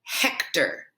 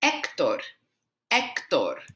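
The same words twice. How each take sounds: First: HEK-ter, English style; anglicized Hector; wrong way. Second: Hector with silent H, EK-tor; Spanish pronunciation. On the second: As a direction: drop the H in Hector. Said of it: "our H is silent". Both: Shown as a demonstration.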